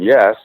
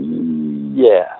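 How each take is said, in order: First: The yes is said firmly, without hesitation. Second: The yes is said slowly, with audible hesitation. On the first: The person fully agrees. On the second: The person has doubts despite agreeing.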